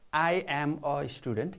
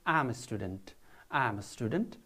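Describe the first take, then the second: First: Full form with I and am separate. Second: Contracted form with I and am joined. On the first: The speaker calls it wrong. "not I am a student" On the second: The speaker calls it right. "you can say I'm a student"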